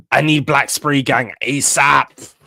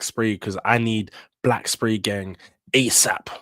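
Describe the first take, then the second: First: Slow, loud, pleading demand; louder plea. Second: Said in the usual way. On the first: Real, not acted. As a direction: punch "need" and drag out the plea.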